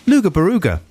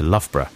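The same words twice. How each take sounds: First: "Luga Baruga" said as LOO-guh buh-ROO-guh; mispronounced Loughborough. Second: Said in the usual way. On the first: Retold or imitated. Dad answering his boy, mispronounced "Luga Baruga". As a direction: say "Luga Baruga" higher, with oo vowels and hard g's. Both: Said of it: "a mispronunciation for you".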